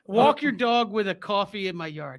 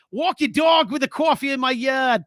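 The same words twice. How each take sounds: First: Mock Boston accent again; playful Boston accent. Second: A mock Boston accent read off a text; playful Boston accent. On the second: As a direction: try the line in a light Boston accent. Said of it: "Do that in my Boston accent".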